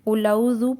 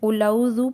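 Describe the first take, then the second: First: The long vowel is cut short and rushed. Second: The long vowel is cut short and rushed.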